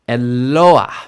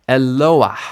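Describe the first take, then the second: No difference in how they are said.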